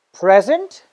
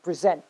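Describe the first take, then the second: First: PREsent, stressed on the first syllable. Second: PreSENT, stressed on the second syllable. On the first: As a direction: say "present" as the noun, punching "pre". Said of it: "stress on the first syllable". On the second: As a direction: say "present" as the verb, weight on "sent". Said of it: "stress on the second syllable". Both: Shown as a demonstration.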